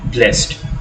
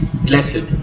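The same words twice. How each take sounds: First: The word is said with one syllable. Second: The word is said with two syllables. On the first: "and sometimes we say blessed" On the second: "Sometimes we pronounce it as having two syllables"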